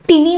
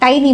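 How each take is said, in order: First: The first vowel sounds like 'ee'. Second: The first vowel sounds like 'eye'. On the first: The speaker calls it wrong. "टिनी म्हणू नका याचा उच्चार" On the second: The speaker calls it right. "टायनी म्हणजे छोटेसे"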